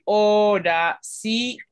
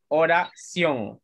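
First: "oración" in four beats, o-ra-ci-ón; slowly chopped "oración", o, ra, ci, ón; wrong syllable split. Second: "Oración" slowly as o-ra-ción, three beats; slow "Oración" with ció in a single beat; correct syllable split. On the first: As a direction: break "oración" wrongly between i and ó. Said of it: "no podemos decir". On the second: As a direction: keep ción whole in "Oración". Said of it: "No, no". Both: Shown as a demonstration.

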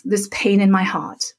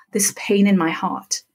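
First: Said in the usual way. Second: Whisper. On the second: Shown as a demonstration. Teacher demonstrating tapping, whispering the phrase. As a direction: breathe the words with no voice at all.

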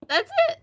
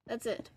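First: Very high, loud outburst; exasperated squeak. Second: Deflated. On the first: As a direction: squeak it out loud at the top of your range. Exclaims limits of their French. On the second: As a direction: let it drop away quietly. Repeats it, deflated. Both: Real, not acted.

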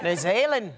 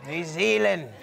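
First: "New Zealand" with a light Kiwi accent. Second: "New Zealand" with a stronger Kiwi accent, lower; New Zealand accent, second try. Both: Shown as a demonstration. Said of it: "if that's a good New Zealand accent".

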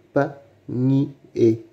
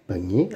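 First: "panier" slowly split into separate syllables. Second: Said in the usual way. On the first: Shown as a demonstration. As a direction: break "panier" apart with clear pauses. Teacher splits word into syllables. (« panier » lentement, syllabe par syllabe)

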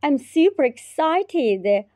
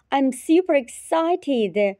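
Both takes have the same delivery.

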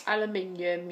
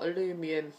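First: Aluminium said the British way, al-yoo-MIN-ee-um with five syllables; British pronunciation. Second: Aluminium said the American way, a-LOO-mi-num with four syllables; American pronunciation. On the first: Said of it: "U K spelling". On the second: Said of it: "U S spelling". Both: Shown as a demonstration.

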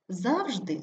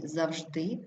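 First: ЗАВжди, falling after stressed ЗАВ; stress on first syllable. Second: ЗавЖДИ, rising on stressed ending; stress on last syllable. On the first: Teacher showing double stress, stress on ЗАВ. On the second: Teacher showing double stress, stress on ЖДИ. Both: Shown as a demonstration. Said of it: "слова із подвійним наголосом".

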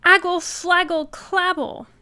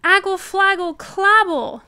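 First: Put-on high, loud baby babble; toddler babble. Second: Put-on high, loud baby gibberish; insistent toddler babble. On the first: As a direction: babble like a little child. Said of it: "Trixie turned to her daddy and said". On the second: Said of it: "said Trixie again". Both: A narrator's reading.

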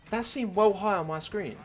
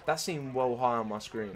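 First: High, loud, disbelieving protest; incredulous protest. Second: Said in the usual way. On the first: Real, not acted. Player baffled by what the screen showed, incredulous protest. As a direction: pitch it up, loudly doubting what was seen. Still incredulous about the jump.

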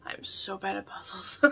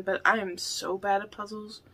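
First: A sheepish whispered admission; whispered confession. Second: Said in the usual way. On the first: Shown as a demonstration. Admitting to viewers she is bad at puzzles, whispered. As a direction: whisper it, soft and secretive.

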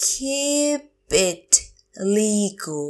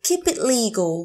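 First: Long "Keep", then "it", then "legal"; slow teacher model of "Keep it legal"; word by word. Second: Said in the usual way. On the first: Shown as a demonstration. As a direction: pause between the words of "Keep it legal". Teacher repeats phrase word by word.

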